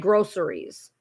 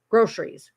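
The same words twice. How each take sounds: First: The word is said in a standard, full way. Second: The word is said in a clipped Michigan way.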